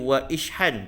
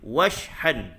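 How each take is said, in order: First: The 'i' vowel after 'wa' is pronounced separately. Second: The 'i' vowel is dropped, joining 'wa' directly. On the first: The speaker calls it wrong. "dia tak boleh baca wa ishhan, tak boleh" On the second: The speaker calls it right. "jadi alif ni tak dibaca terus"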